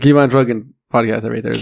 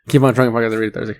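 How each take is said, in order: First: It is said slowly. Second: It is said fast.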